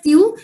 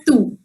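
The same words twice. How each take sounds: First: Tu said as "tyoo"; tu with y-glide. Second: Tu said as plain "too"; no y sound after the t in tu; tu without glide. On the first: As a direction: put a y sound after the t in tu. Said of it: "You can say it as". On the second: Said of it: "that is the more appropriate one". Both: Shown as a demonstration.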